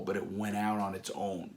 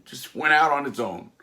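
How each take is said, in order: First: Said in the usual way. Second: "Just went out on its own" high and loud; emphatic disbelief. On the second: Real, not acted. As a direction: punch it out, amazed. Repeated with disbelief.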